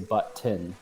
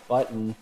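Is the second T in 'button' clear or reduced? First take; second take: clear; reduced. First: Both T sounds are clearly pronounced. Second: The second T is reduced, not clearly pronounced. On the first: This is the speaker's own proper pronunciation. "I say button. I pronounce both T's" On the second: This is how many people around the speaker say it. "a lot of people will say button"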